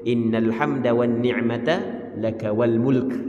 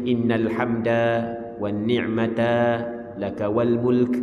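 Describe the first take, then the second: First: There is no pause after ni'mata. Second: There is a pause after ni'mata. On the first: The speaker calls it right. "tak berhenti gitu. Ha, dia cara baca ni" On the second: The speaker calls it wrong. "Ada orang berhenti lagu tu baca"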